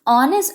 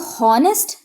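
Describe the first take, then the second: First: The word starts with a vowel, no h sound. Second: The word starts with a clear h sound. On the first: The speaker calls it right. "ओ हो रहा है" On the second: The speaker calls it wrong. "इसको हॉनेस्ट नहीं पढ़ना है"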